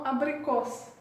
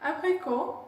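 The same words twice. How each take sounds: First: "abricos" ending in an audible s; final S sounded. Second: Said in the usual way. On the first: Shown as a demonstration. Teacher showing the changed ending of apricot, final S sounded. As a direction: say ABRICOS with the last s clearly hissed. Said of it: "on prononce S". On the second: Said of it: "on change un peu la fin".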